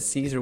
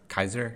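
First: The name begins with a soft S sound. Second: The name begins with a hard K sound. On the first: This is the usual modern pronunciation. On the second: This is how the ancient Romans supposedly said it.

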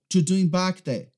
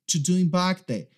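First: The opening words are cut and run together. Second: The opening words are cut and run together.

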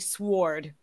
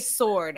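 First: The word is said with a W sound. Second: The word is said without a W sound. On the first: This is an unusual way to say it. The speaker calls it wrong. "I've never heard anyone say sword" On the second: This is the usual way to say it. The speaker calls it right. "Normal people say sword"

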